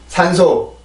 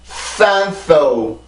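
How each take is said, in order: First: It is pronounced with Korean sounds and rhythm. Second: It is pronounced with English sounds and stress. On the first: "한국어 먼저 발음을 해봅니다" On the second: "영어입니다"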